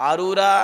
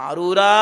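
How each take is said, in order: Both takes have the same delivery.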